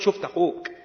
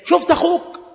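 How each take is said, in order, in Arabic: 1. يبدو عبارة إخبارية عادية. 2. يبدو استنكارا وتوبيخا. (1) "مخبرا" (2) "استنكاريا"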